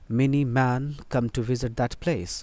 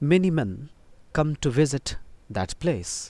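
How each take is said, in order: First: The second word has the vowel of 'man'. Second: The second word has the vowel of 'men'. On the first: The speaker calls it wrong. "Wrong" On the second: The speaker calls it right. "M E N"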